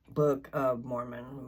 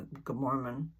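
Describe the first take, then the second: First: Careful redo. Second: Said in the usual way. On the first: Real, not acted. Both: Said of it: "My words don't come out of my mouth".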